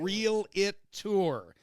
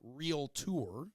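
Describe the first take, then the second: First: The word is said with three syllables. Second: The word is said with two syllables. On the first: The speaker calls it wrong. "They always call them a" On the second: The speaker calls it right. "It's never a real tour"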